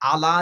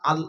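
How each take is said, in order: First: An extra vowel sound follows the L. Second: The L closes the syllable with no vowel. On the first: The speaker calls it wrong. "আলা আছে না আল আছে?" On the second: The speaker calls it right. "জুড়ে বলেন আল।"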